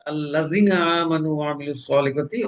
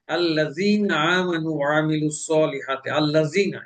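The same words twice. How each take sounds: First: আল্লাযীনা with the ee cut short; wrong short ya. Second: Slow আল্লাযীনা with the ya held long; correct long ya. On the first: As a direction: rush the ee in আল্লাযীনা. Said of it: "মাদ না করে". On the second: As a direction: stretch the ee in আল্লাযীনা. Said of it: "এটা ইয়া মাদ আছে". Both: Shown as a demonstration.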